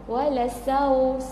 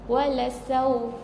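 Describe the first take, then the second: No difference in how they are said.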